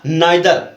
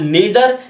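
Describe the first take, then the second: First: The first vowel sounds like 'eye'. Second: The first vowel sounds like 'ee'. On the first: "इसको चाहे तो आप नीदर या नाइदर दो में से किसी का भी प्रोनाउंस कर सकते" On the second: "इसको चाहे तो आप नीदर या नाइदर दो में से किसी का भी प्रोनाउंस कर सकते"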